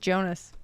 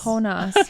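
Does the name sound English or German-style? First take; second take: English; German-style. First: The name is said in a plain English way. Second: The name is said with a fancy German-like sound. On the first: The name is an ordinary English name. The speaker calls it right. "his name was just Jonas" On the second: The character seems to be German. The speaker calls it wrong. "I thought they were pronouncing it like"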